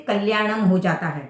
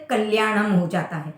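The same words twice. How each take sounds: The two takes are said the same way.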